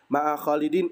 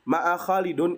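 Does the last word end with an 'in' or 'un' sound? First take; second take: in; un. First: The last word ends with an 'in' sound. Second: The last word ends with an 'un' sound. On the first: The speaker calls it right. "itu benar" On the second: The speaker calls it wrong. "itu salah. Harokatnya salah"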